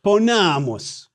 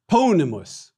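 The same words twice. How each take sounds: First: Ponamus drawn out slowly on a stressed long NA; penult stress. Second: Ponimus with PO stressed and a short I after it; antepenult stress. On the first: Teacher explaining the accent rule, ponamus stressed on long NA. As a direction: stretch and stress the middle A of ponamus. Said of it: "long A in the penult or second to the last syllable". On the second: Teacher explaining the accent rule, Ponimus stressed on PO. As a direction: hit the first syllable of Ponimus, keep the middle short. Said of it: "short I in the second to the last syllable". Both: Shown as a demonstration.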